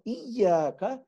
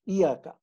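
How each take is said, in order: First: The y sound is held and doubled. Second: The y sound is short and single. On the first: The speaker calls it right. "So Iyaka is how you should actually pronounce this thing" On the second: The speaker calls it wrong. "many people say Iyaka. They ignore the Shadda"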